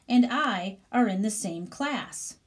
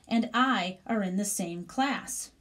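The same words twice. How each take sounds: Both takes have the same delivery.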